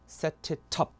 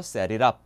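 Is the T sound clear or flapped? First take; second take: clear; flapped. First: The T sounds are pronounced clearly and fully. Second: The T sounds are softened into a quick flap. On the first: This is the British pronunciation. "영국은 그대로 T 갑니다" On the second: This is the American pronunciation. "미국에서는 저 T 발음이 다시 한번 리을처럼 싹 죽습니다"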